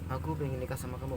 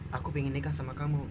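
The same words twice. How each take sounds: First: It is said weakly, without energy. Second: It is said powerfully, with energy.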